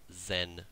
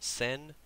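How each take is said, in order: First: The word begins with a Z sound. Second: The word begins with an S sound. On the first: The speaker calls it right. "it's zen. we have a Z sound instead of an S sound" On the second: The speaker calls it wrong. "So it's not sen"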